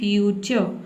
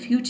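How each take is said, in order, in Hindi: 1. यह शब्द एक छोटे 'uh' स्वर के साथ खत्म होता है। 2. यह शब्द एकदम से 'ch' ध्वनि पर खत्म होता है। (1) "आपको बोलना है फ्यूचर" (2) "फ्यूच नहीं बोल देना है"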